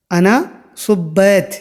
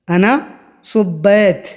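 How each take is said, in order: Both takes have the same delivery.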